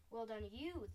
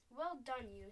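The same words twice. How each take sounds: First: "you" stressed with a falling tune; returned praise. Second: "Well done" louder, falling away on "you"; mild cry of praise. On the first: BFG returning Sophie's praise, stressing "you". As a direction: hand the praise back, leaning on "you". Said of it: "the B F G said". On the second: Sophie congratulating the BFG, a mildly excited cry. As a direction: cheer lightly, leaning on "Well". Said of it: "Sophie cried". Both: A narrator's reading.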